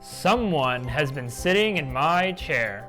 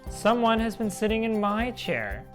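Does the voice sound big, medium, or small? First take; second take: big; medium. First: It is said in a great big voice. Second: It is said in a middle-sized voice.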